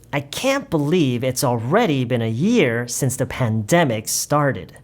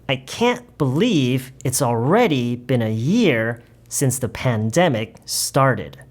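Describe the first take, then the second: First: The sentence is read at a faster pace. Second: The sentence is read at a slow pace. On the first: "이번에는 조금 더 빠르게 해볼게요" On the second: "제가 처음부터 끝까지 다시 천천히 읽어볼게요"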